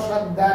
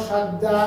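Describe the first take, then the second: No difference in how they are said.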